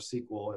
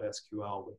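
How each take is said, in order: First: It is said as one word, like sequel. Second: It is spelled out as three separate letters. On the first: "as some people say" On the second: "I say it out. I say the letters"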